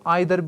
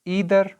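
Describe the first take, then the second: First: The first vowel sounds like 'eye'. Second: The first vowel sounds like 'ee'.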